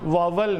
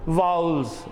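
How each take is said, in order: First: The word is said as 'vawal'. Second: The word is said as 'vowels'. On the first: The speaker calls it wrong. "वावल नहीं" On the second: The speaker calls it right. "वाउल्स बोल रहा हूँ मैं"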